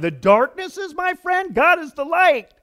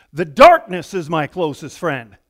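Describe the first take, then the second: First: High-pitched, indignant disbelief; raised voice, scandalized and disbelieving; incredulous protest. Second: Said in the usual way. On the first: Acted. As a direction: throw it back as an outrageous claim. Incredulous repeat of psalm's last line. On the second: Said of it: "He ends this one like this".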